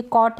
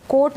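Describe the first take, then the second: First: "कॉट" with an open AW, as in cot; open AW vowel. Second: "कोट" with a closed long O, as in coat; long O vowel. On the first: Teacher showing learners the right word, "कॉट" with open AW. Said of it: "ये कॉट है". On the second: Teacher showing learners the wrong word, "कोट" with long O. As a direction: say "कोट" with a rounded O. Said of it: "कोट नहीं होता जो कोट पहनते हैं". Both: Shown as a demonstration.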